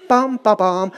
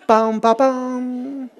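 First: Said in the usual way. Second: Chanted, very slow, softer "pam, pa, pam"; chanted, drag each syllable like a snail. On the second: Shown as a demonstration. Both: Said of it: "moving like a snail".

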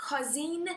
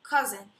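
First: Cousin said with an o, KO-zin, rising; wrong vowel. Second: Cousin said KUZ-en with a short u, falling; corrected pronunciation. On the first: Teacher first says Cousin wrongly as kozin. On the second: Teacher corrects herself, saying cousin as kuzen. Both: Shown as a demonstration. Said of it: "no, cousin".

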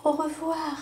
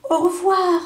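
First: Much softer echo of the goodbye; fading goodbye. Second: Called farewell. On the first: Butterfly's last goodbye to the lamb from far off, soft. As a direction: let it drift away into the distance. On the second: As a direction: call it out as you leave. Farewell called while flying away. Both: A narrator's reading.

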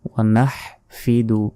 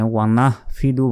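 First: Strong Arabic h in নাহফিদু; correct h demonstration. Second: Light, brisk h in নাহফিদু; wrong h demonstration. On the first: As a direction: say নাহফিদু carefully, h squeezed from the throat. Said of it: "এখানে ওয়া নাহফিদু বলা যাবে না". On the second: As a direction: say নাহফিদু quickly with everyday h. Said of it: "বলা যাবে না". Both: Shown as a demonstration.

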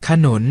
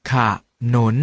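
First: Said in the usual way. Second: ขะหนุน with a short half ขะ before หนุน; pronounced ขะหนุน. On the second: Shown as a demonstration. Teacher shows students the reading ขะหนุน. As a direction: say ขะ lightly, then หนุน. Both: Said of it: "ออกเสียงว่า".

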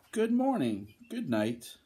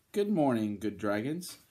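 First: High-pitched little dragons greeting back; small storybook creatures answering in chorus style; little dragons' reply. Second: Lightly voiced friendly knight, tune rising at the end; storybook knight saying good morning; knight's greeting. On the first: Acted. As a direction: pipe up high on "morning", then drop. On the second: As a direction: greet the dragons, lifting the last word.

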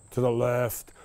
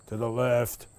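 Both takes have the same delivery.

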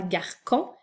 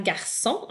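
First: Garcon with a hard K sound instead of S; garcon, wrongly said with K. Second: Garçon with a soft S sound on the ç; correct garçon. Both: Shown as a demonstration. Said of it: "et non pas garcon".

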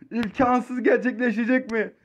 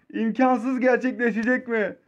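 No difference in how they are said.

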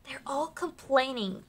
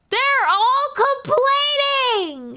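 First: Soft secret remark; much softer, breathy mutter; whispered aside. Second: Very high, very slow, stretched-out whine; high, slow complaining wail; whiny mock voice. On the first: Real, not acted. Repeats line as aside. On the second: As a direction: drag it out like a sulking child. Mocking whining customers.

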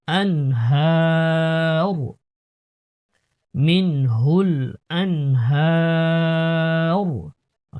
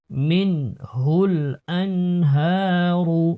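First: আনহার drawn out very slowly, stopped on র with no vowel; pausal stop form. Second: মিনহুল আনহারু recited slowly, the final রু voiced; full vowel ending. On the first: Teacher showing the stop at the verse pause, very slow. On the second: Teacher reciting slowly, full ending before the stop. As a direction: read through with the ending. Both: Shown as a demonstration. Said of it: "এখানে ওয়াকফ করলে আনহার বলতে হবে".

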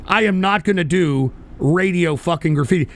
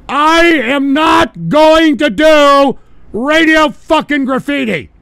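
First: Said in the usual way. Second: High, loud, slow yell; emphatic shouted refusal. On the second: Real, not acted. Host refusing to do Radio Graffiti, shouting slowly. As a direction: bellow every word drawn out. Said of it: "Let me repeat that one mo again".

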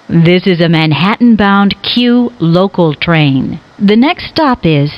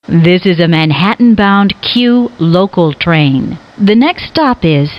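No difference in how they are said.

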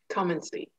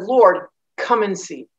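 First: Much softer, almost under the breath; hushed echo of come and see. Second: Said in the usual way. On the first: Shown as a demonstration. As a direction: let the repeat fade out to nothing. Echoed invitation, much softer.

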